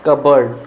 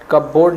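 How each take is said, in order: First: कबर्ड with silent p and reduced "berd" ending; कबर्ड run together as one word, short second vowel; correct spoken pronunciation. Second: कपबोर्ड with the p sounded and a full "bord" ending; कपबोर्ड as two full words, "kap-bord"; spelling pronunciation. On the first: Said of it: "इसको बोला जाता है कबर्ड". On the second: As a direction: say कपबोर्ड as spelt, cup plus board. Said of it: "नहीं बोला जाता". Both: Shown as a demonstration.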